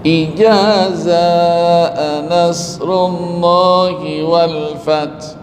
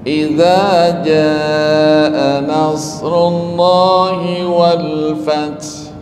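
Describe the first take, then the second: First: The first word is said with j and z sounds. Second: The first word is said with a soft dh sound. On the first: The speaker calls it wrong. "Ada yang sulit nyebut zal dengan jim" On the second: The speaker calls it right. "Orang Jakarta ini diajarin"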